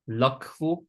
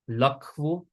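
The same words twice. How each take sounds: Both takes have the same delivery.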